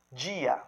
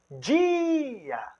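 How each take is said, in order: First: Said in the usual way. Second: "dia" with the I held very long and high; stress on I. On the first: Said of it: "Eu tenho aqui a palavra". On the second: Shown as a demonstration. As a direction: stretch DIII in "dia", higher pitch, falling into A. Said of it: "ele tem uma energia expiratória". ("dia" com I bem agudo, prolongado e enfático)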